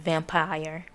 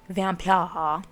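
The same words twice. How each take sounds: First: The word is said in a plain accent. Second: The word is said with a put-on accent.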